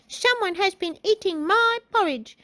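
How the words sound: A small, high-pitched childlike voice. A small child character speaks. "in his little baby voice"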